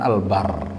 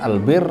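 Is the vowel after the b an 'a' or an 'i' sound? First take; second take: a; i. First: The vowel after the b is a. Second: The vowel after the b is i.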